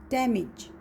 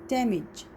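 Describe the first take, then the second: Both takes have the same delivery.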